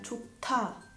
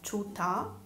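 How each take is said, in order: First: The middle consonant has a strong puff of air. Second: The middle consonant has no puff of air. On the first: The speaker calls it right. "ma è chota, aspirata" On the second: The speaker calls it wrong. "chota non è chota"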